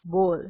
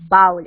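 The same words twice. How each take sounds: First: "bowl" as BOHL; long o in "bowl", like goal; corrected bowl. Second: "bowl" as BAUL, rhyming with howl; ow-as-in-cow vowel in "bowl"; mispronounced bowl. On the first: Teacher giving the correct word, "bowl" as BOHL. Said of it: "It's not bowl, it's bowl". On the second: Teacher showing a common mistake, "bowl" as BAUL. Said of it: "It's not bowl". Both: Shown as a demonstration.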